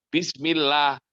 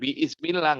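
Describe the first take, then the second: First: The syllables bi and smi run together. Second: An extra vowel is sounded after bi. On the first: The speaker calls it right. "makanya bismillah" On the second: The speaker calls it wrong. "bukan biismillah nggak boleh"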